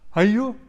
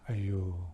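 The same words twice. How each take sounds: First: It sounds like reacting to tragic news. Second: It sounds full of pity and sympathy.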